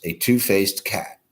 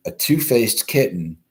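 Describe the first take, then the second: First: Two-faced drawn out slowly for emphasis; stress on two-faced. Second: Said in the usual way. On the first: Shown as a demonstration. Host repeats the headline slowly for the chat. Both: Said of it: "Okay, yes".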